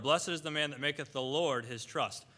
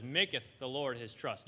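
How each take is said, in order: First: Said in the usual way. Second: Maketh drawn out and leaned on; slow down to point out the word maketh; stress on maketh. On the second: Shown as a demonstration. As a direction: put the weight on maketh, unhurried. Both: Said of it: "And notice what it says".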